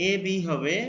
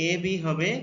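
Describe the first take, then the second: The two takes are said the same way.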